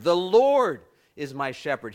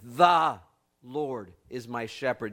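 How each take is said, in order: First: The stress is on the word Lord. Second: The stress is on the word the.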